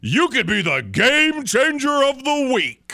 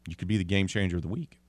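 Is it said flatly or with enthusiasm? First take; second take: enthusiasm; flatly. First: It is said with lively enthusiasm. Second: It is said in a plain, flat way.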